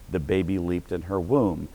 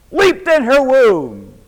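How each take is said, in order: First: Said in the usual way. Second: High, loud, slow preaching cry; preached cry. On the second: Shown as a demonstration. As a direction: cry it out slowly from the pulpit.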